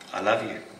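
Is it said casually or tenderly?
casually. It is said casually, without feeling.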